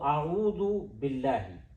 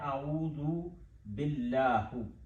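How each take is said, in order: First: The last word ends in an 'ee' vowel. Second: The last word ends in an 'oo' vowel. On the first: The speaker calls it right. "आऊदु बिल्लाही ही पढ़ना है" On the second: The speaker calls it wrong. "आऊदु बिल्लाहु गलत है"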